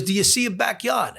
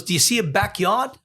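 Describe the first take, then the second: First: Higher voice, "backyard" falling at the end; insistent repeat. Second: "backyard" lifted into a rising question; questioning father. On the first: Father repeating himself to puzzled son, insistent fall on "backyard". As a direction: repeat it pointedly, dropping on "backyard". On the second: Father quizzing son on the phone, rising question on "backyard". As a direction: ask it with a higher voice, rising on "backyard". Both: Retold or imitated.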